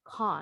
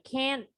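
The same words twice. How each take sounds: First: A British accent with a long broad a vowel. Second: An American accent with a flat a vowel. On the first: "Kalau British English" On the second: "this is American English"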